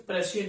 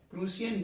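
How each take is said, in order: First: प्रशियन with a short first vowel and "sh"; alternative pronunciation. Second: प्रूसियन with a long "oo" in the first syllable; long oo pronunciation. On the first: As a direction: say प्रशियन as "pra-shi-yan". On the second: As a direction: say प्रूसियन as "proo-si-yan". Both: Shown as a demonstration. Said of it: "कई लोग इसे प्रशियन भी बोलते हैं".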